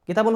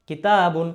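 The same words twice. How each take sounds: First: The vowel after the t is short. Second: The vowel after the t is held long. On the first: The speaker calls it wrong. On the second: The speaker calls it right.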